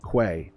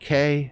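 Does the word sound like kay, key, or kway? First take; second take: kway; kay. First: The word starts with a kw sound, kway. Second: The word sounds like the letter K. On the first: "all acceptable pronunciations" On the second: "all acceptable pronunciations"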